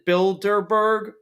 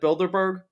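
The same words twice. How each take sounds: First: The word is said slowly and carefully. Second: The word is said quickly and clipped. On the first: "should I have said" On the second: "instead of"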